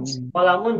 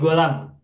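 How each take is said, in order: First: The word begins with a K-like qaf sound. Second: The word begins with a G sound. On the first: This is the standard pronunciation. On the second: This is how a certain community pronounces it.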